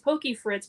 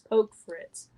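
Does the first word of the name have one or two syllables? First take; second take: two; one. First: The first word has two syllables. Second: The first word has one syllable. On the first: The speaker calls it right. "it's Pokey Fritz" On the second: The speaker calls it wrong. "but people are saying it's Poke Fritz"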